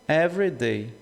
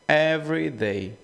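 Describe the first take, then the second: Both takes have the same delivery.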